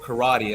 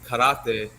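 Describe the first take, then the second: First: It is said with American-style vowels and rhythm. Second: It is said with Japanese-style vowels and rhythm.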